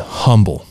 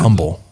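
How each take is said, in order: First: The word begins with an H sound. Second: The word begins without an H sound. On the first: The speaker calls it wrong. "they say the name wrong" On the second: The speaker calls it right. "like without the H"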